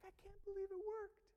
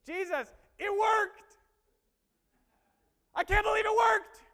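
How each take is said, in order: First: High, contained squeal of disbelief; acted high-pitched amazement; hushed excitement. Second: High, drawn-out shout of amazement; loud, elated acted yell; excited disciples. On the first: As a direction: marvel in a high voice, held back from shouting. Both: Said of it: "They came back all excited".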